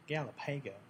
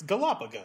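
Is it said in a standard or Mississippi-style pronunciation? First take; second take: Mississippi-style; standard. First: It is said the way a Mississippian would. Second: It is said like the island chain name.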